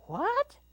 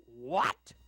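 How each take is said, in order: First: Very high, louder startled mama bear. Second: Big papa bear question, not pitched up; booming Papa Bear. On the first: Mama Bear reacts to the intruder, high startled voice. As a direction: squeak the question way up high. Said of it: "said Mama Bear in her quiet voice". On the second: Papa Bear reacts to the intruder, booming. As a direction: boom out an astonished question. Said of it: "asked Papa Bear in his booming voice". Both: A narrator's reading.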